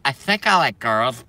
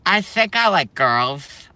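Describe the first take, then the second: First: Said in the usual way. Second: High, slow, timid mock voice, rising at the end; mocking soy boy. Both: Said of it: "that look like this and they go".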